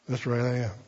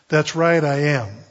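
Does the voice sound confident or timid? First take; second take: timid; confident. First: It is said weakly and timidly. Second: It is said boldly and confidently.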